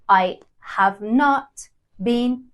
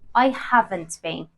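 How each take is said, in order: First: Have and not are said as two full words. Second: Have and not are joined into one short word. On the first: The speaker calls it wrong. "instead of saying" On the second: The speaker calls it right. "I would say"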